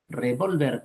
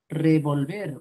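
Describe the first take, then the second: First: The stress is on the second syllable. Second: The stress is on the last syllable. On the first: It is a noun meaning a firearm. "como palabra grave es un sustantivo" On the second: It is a verb meaning to stir. "como palabra aguda es un verbo"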